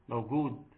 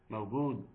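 The two takes are said the same way.

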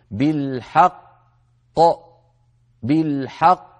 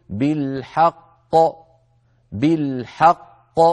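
First: بالحق with a gap between the two qafs; wrong reading. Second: بالحق slowly, both qafs joined without a gap; correct reading. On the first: Teacher showing students the mistaken pause in بالحق. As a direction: say بالحق with a little silent break on the qaf. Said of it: "يعني الخطأ أن نقول". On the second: Teacher giving students the correct بالحق. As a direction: draw out بالحق and flow straight into the bouncing qaf. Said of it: "لا بد أن نقول". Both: Shown as a demonstration.

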